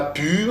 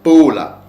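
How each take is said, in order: First: It is one syllable ending in an R sound. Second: It is two syllables ending in an L sound. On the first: The speaker calls it wrong. "Ce n'est pas pur" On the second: The speaker calls it right. "ce mot-là se prononce Paula"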